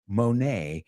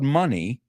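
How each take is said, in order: First: The name ends with an 'ay' sound. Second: The name ends with an 'ee' sound. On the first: The speaker calls it right. "Monet, the French painter" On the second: The speaker calls it wrong. "not Claude Money"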